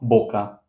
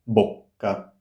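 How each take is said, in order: First: The k sound is short. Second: The k sound is held long. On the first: The speaker calls it wrong. "Not boca, no" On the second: The speaker calls it right. "Long k"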